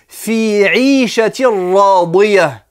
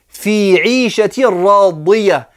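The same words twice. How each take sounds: Both takes have the same delivery.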